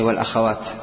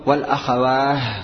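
First: The word ends with a t sound. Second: The word ends with an h sound. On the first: The speaker calls it right. "تقف عليه بالتاء" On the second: The speaker calls it wrong. "الوقف عليه بالهاء، لكنه مرجوح"

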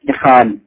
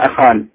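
First: The word begins with an 'i' vowel. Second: The word begins with an 'a' vowel. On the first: "لكن الهمزة هنا كسرت إخال" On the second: "كان حقه أن يقول أخال"

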